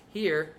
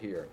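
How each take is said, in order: First: Upper speaking register; top of chest voice. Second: Dropped speaking register; low chest voice. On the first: Teacher correcting misunderstanding, upper chest voice. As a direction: place it at the top of speech. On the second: Teacher showing register to avoid, low chest voice. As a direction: let it sit down low. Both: Shown as a demonstration. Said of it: "Here instead of here".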